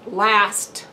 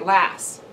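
First: The final t sound is clearly pronounced. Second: The final t sound is left off. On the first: The speaker calls it right. "instead of saying last" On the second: The speaker calls it wrong. "I have a bad tendency of leaving off the endings"

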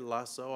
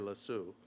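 First: It is said in a non-Canadian accent. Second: It is said in a Canadian accent.

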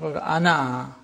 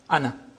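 First: The final vowel is long. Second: The final vowel is short. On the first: The word stands alone at a pause. "With the alif pronounced" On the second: The word runs on into the following words. "you don't pronounce the alif as if it is Hamza plus Noon Fatha"

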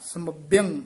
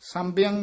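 First: The m is held with a doubled bh. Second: The nasal before bh is short. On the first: The speaker calls it right. "ਕਸ ਕੇ ਪਦ ਉਚਾਰਨ ਕਰਨਾ ਹੈ" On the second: The speaker calls it wrong. "ਸੰਭਿਅੰ ਨਹੀਂ ਕਹਿਣਾ"

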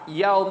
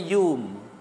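First: The vowel is a gliding 'au' diphthong. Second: The vowel is a plain long 'u'. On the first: "Kalau hak betul Al-Fayyaum" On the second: "yaum tu dia kata yum"

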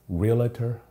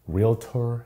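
First: It has an extra vowel before 'tor'. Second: It has two syllables with no extra vowel. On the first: The speaker calls it wrong. "it's not realtor" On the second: The speaker calls it right. "there's no A in that"

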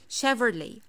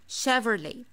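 The two takes are said the same way.

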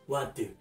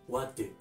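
Both takes have the same delivery.

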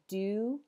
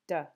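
First: The vowel is a full, clear vowel. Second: The vowel is a reduced schwa. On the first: "Instead of do" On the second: "you might just hear duh"

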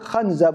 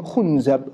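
First: The first vowel is an a sound. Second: The first vowel is a u sound. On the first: "with a fatha" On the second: "with a dhamma"

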